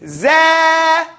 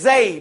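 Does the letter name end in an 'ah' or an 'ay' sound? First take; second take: ah; ay. First: The name ends in an 'ah' sound. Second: The name ends in an 'ay' sound. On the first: This is the name chosen for reciting. "we're going to call it Za" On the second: This is the commonly known name. "a lot of people know it as Zay"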